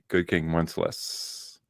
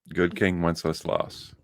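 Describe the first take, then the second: First: The name is said with one syllable fewer. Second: The name is said with an extra syllable. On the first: The speaker calls it wrong. "she could not pronounce the name correctly. She would say" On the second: The speaker calls it right. "you needed that extra like syllable"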